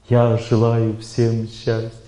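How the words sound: It is said in a calm, thoughtful way. It is tied to one's memory of oneself. "Второй тип звука – это умственный звук"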